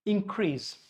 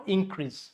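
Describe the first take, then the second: First: Increase as in-CREASE; stress on second syllable. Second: Increase as IN-crease; stress on first syllable. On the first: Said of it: "If it is verb". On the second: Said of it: "if it is noun". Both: Shown as a demonstration.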